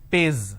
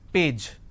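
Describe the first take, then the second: First: The word ends with a z sound. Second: The word ends with a j sound. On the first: The speaker calls it wrong. "lot of people replace the J with a Z" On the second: The speaker calls it right. "the pronunciation is P, A, J, page"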